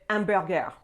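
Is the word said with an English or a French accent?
French. It is said with a French accent. The speaker calls it right. "You're going to have to say hamburger"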